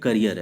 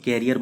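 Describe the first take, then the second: First: The first vowel sounds like the vowel in 'cut'. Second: The first vowel sounds like the vowel in 'cat'. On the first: The speaker calls it right. "ये करियर है" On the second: The speaker calls it wrong. "बहुत लोग इसको कैरियर बोल देते हैं, गलत है"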